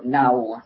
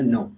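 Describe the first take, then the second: First: The word ends in the diphthong ow. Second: The word ends in a plain o vowel. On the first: This is the older form of the word. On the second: This is the form used today.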